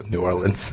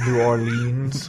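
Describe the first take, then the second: First: "New Orleans" with short ending, OR-lunz; his own pronunciation. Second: "New Orleans" drawn out, or-LEENZ; long-ending pronunciation. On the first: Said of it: "that's how I said it". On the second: Contrasting take on the name. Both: Shown as a demonstration.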